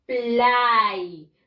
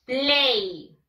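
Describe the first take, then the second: First: "Play" read as written, "plai"; spelling pronunciation. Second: "Play" as "pley", long and loud; correct English pronunciation. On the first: Teacher showing pupils how it is written, "Play" said as spelt, "plai". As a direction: draw out "Play" to rhyme with "pie". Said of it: "En inglés lo vamos a escribir así". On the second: Teacher asking pupils to repeat, "Play" pronounced clearly as "pley". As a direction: model "Play" for repeating, rhyming with "day". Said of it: "La pronunciación es esta de aquí". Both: Shown as a demonstration.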